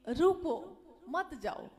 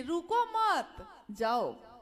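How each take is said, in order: First: Firm रुको set apart from मत जाओ; pause after रुको. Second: Slow, loud रुको मत, break, then जाओ; रुको मत together, emphatic lone जाओ; pause after मत. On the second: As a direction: run रुको into मत, set जाओ apart. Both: Shown as a demonstration. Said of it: "वाक्य बदल गया तो अर्थ बदला".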